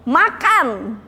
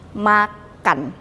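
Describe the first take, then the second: First: Said forcefully with exclamatory command intonation. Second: Said flatly with falling statement intonation. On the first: It orders someone to eat. "Lagi nyuruh makan" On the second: It is just giving information. "kita ganti dengan tanda titik"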